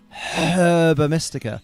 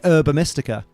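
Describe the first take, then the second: First: The first word starts without an h sound. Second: The first word starts with an h sound. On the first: "instead of herba mystica" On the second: "I'm British, so I say herba mystica"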